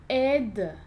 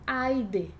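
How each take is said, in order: First: The first vowel is a plain 'e' sound. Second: The first vowel is an 'ai' glide. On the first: The speaker calls it right. "A gente vai dizer" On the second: The speaker calls it wrong. "e não"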